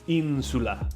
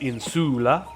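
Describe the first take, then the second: First: The stress is on the first syllable. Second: The stress is on the second syllable. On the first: The speaker calls it right. "The in is stressed" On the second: The speaker calls it wrong. "as opposed to"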